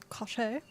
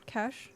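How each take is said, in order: First: Cache said as kash-ay, two syllables; cache with an added ay ending, like cachet; cache-ay pronunciation. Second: Said in the usual way. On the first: Shown as a demonstration. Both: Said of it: "the personal cache, cache, cache".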